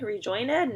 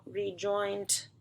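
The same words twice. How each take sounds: First: "Rejoin ed" with ed as its own syllable; sounding out wrong. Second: Said in the usual way. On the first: Shown as a demonstration. Teacher models the wrong reading for kids, tentative. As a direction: split off "ed" as a separate sound, questioning.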